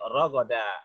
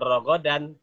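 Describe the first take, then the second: First: The word ends with a plain a vowel. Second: The word ends with an n sound. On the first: The reader stops at this word. The speaker calls it right. "tapi rogoda. Diganti an, jadi a" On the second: The reader continues without stopping. The speaker calls it wrong. "Bukan rogodan"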